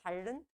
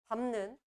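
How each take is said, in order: First: The middle consonant is a double L sound. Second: The middle consonant is a nasal M sound. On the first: The speaker calls it wrong. "발른? 아니죠" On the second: The speaker calls it right. "리을이 먼저 탈락할 거고. 비읍이 비음을 만나서"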